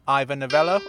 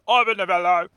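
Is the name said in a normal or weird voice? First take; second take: normal; weird. First: It is said in his normal voice. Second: It is said in a weird put-on voice.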